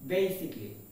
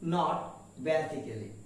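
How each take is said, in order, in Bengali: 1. এটি তিন সিলেবলে বলা হয়। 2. এটি চার সিলেবলে বলা হয়। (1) "প্রপার উচ্চারণটা হবে বেসিকলি" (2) "আমরা এর উচ্চারণ করে থাকি বেসিক্যালি"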